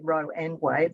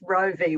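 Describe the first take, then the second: First: The middle word is said as 'and'. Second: The middle word is said as 'vee'. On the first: This is how the speaker's own community says it. "we all say Roe and Wade" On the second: This is how Americans say it. "the Americans all pronounce the V"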